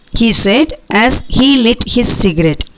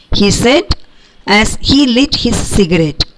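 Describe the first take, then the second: Both takes have the same delivery.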